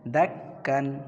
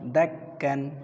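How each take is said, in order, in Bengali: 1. শব্দটি শেষে 'n' ধ্বনি দিয়ে শেষ হয়। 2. শব্দটি শেষে 'n' ধ্বনি দিয়ে শেষ হয়।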